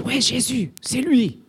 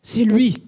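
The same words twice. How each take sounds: First: Plus aigu, foule qui acclame son héros; s'emballer comme un jeune dans la foule; foule enthousiaste. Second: Plus aigu et plus fort, cri de ralliement; foule qui crie. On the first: (acclamation enthousiaste, voix plus aiguë) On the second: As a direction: lancer le mot comme un slogan. (cri de foule, plus fort et plus aigu) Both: Retold or imitated. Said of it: "Ils se disent".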